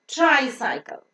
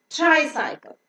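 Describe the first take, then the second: No difference in how they are said.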